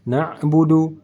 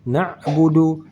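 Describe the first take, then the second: Both takes have the same delivery.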